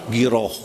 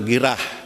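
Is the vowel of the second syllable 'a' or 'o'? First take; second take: o; a. First: The second vowel sounds like o. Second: The second vowel sounds like a. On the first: This is the Arabic reading. The speaker calls it right. "Padahal dibaca dalam bahasa Arabnya apa?" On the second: This is how young people say it. The speaker calls it wrong. "kalau dibacanya kata anak muda mah girah"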